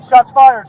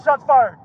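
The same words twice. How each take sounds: First: Shouted alarm over radio; urgent shout. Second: Said in the usual way. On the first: Real, not acted. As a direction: yell it urgently. Officer under fire on radio.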